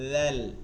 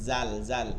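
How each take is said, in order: First: The letter ends cleanly with no added sound. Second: The letter ends with an added echoing sound. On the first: The speaker calls it right. "এখানে কোনো শব্দ আসবে না।" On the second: The speaker calls it wrong. "দেখেন এটা অনেকে জাল বলেন"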